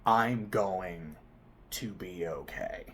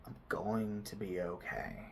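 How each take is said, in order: First: Firmer, fuller "I'm going" trailing to a soft "okay"; mean "I'm going to be okay" this time; steady, determined "I'm going to be okay"; said with conviction. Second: Quiet, half-believed "I'm going to be okay"; "I'm going to be okay" almost under the breath; soft mumbled mantra. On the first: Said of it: "Say it like you mean it". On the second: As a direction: murmur the mantra without conviction. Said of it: "repeat it a bit as a mantra". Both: Shown as a demonstration.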